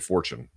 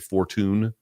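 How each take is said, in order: First: The t is said as a ch sound. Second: The t is said as a plain t sound. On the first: "We say fortune" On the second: "the Brits might say fortune"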